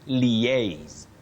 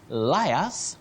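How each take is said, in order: First: It is said the standard way. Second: It is said the common local way. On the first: The speaker calls it right. "No. You say liaise" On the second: The speaker calls it wrong. "not to liars that we commonly use locally"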